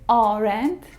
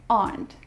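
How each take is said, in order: First: The word is said with two syllables. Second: The word is said with one syllable. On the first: The speaker calls it wrong. "It isn't" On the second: The speaker calls it right.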